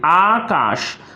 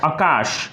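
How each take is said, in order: First: The first vowel is long. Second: The first vowel is short. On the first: The speaker calls it right. "यहां पर आकार की मात्रा होगी" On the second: The speaker calls it wrong. "जो गलत है"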